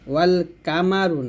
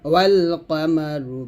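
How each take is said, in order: First: The q sound in qamaru is light and thin. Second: The q sound in qamaru is heavy and thick. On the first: The speaker calls it wrong. "ওয়াল কামারু না" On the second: The speaker calls it right. "কফ মোটা করে"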